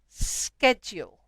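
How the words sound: It is said with an American pronunciation. "our friends in the U S say schedule"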